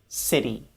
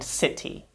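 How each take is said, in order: First: The middle sound is a fast, soft flap. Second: The middle sound is a crisp, true T. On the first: The speaker calls it right. "Instead, we say" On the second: The speaker calls it wrong. "many students will say words like"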